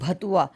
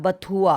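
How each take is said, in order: First: The word begins with a breathy 'bh' sound. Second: The word begins with a plain 'b' sound. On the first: This is how another person says the word. The speaker calls it wrong. "ये कह रही है भतुए की बाजी है" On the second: This is how the word is said at home. The speaker calls it right. "वो बथुआ होता है"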